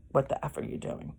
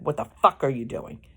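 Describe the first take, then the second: First: Soft, quick, censored retelling; toned-down retold anger. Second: Quick, mildly angry quote, punch on FUCK; retold anger. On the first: Wife quoting husband woken from sleep, toned-down anger. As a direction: quote him quickly under your breath, swear softened. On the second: Wife quoting husband woken from sleep, mock anger. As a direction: imitate his irritated snap at a modest volume. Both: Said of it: "Really angry".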